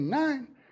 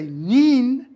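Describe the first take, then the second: First: The vowel sounds like 'eye'. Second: The vowel sounds like 'ee'. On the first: This is the modern pronunciation after the vowel shifted. The speaker calls it right. "we say nine" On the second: This is the older, pre-shift pronunciation. The speaker calls it wrong. "the reason we don't say neen"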